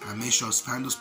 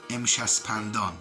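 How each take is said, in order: First: It is said the English way. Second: It is said the Farsi way. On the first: The speaker calls it wrong. "You pronounce it like this" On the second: The speaker calls it right. "the correct pronunciation of this is"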